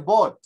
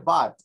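First: The vowel is not an open 'a' sound. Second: The vowel sounds like an open 'a'. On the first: The speaker calls it wrong. "Tampoco se dice but" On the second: The speaker calls it right. "Se dice but. Como una A"

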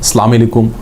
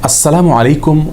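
First: The greeting is said in a clipped, distorted way. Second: The greeting is said fully and carefully articulated. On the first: The speaker calls it wrong. "বিকৃত উচ্চারণে" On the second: The speaker calls it right. "বিশুদ্ধ উচ্চারণ"

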